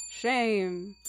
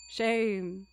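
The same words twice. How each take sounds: The two takes are said the same way.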